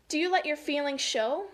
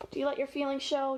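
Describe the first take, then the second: First: Clear, unhurried read-aloud question; emphatic storybook question; picture-book reading. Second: Said in the usual way. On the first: Acted. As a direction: read it out to children with lift.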